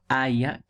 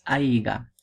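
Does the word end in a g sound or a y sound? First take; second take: y sound; g sound. First: The word has a y sound before the end. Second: The word has a g sound before the end. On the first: The speaker calls it right. "sino es ojalá haya clases" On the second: The speaker calls it wrong. "No es aiga"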